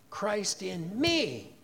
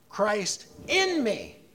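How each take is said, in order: First: The stress falls on the word me. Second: The stress falls on the word in. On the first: "put the emphasis on the third word" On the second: "we're going to put the emphasis on the second word"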